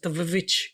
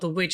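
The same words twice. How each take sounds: First: The word starts with a v-like sound. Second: The word starts with a plain w sound. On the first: The speaker calls it right. "it's two V's" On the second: The speaker calls it wrong. "the witch is not the witch"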